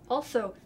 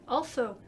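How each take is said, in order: No difference in how they are said.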